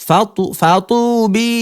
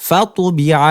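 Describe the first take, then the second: First: ফাতুবি dragged out slowly, broken after ফাতু-; wrong drawl. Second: ফাতুবিআ said crisply in one even beat, no drawl; correct reading. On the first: Teacher showing students the wrong stretched ফাতুবি. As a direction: demo the mistake by stretching ফাতু- before ফাতুবি. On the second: Teacher giving students the right way to say ফাতুবিআ. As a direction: read ফাতুবিআ tight and even. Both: Shown as a demonstration. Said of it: "এরকম টান হবে না".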